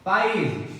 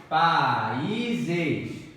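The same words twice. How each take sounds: First: Países said loud and clipped, stress on the -í-; syllable-by-syllable demo. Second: Países drawn out with the stress on -í-; slow stressed demo. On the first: (pronúncia destacada de Países) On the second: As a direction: stretch Países, leaning on the -í-. (Países alongado, com ênfase no í) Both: Shown as a demonstration. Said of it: "Aqui, ó, é a regra de quem?".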